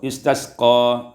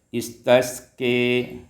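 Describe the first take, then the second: First: The final vowel is a plain open a. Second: The final vowel is tilted toward e.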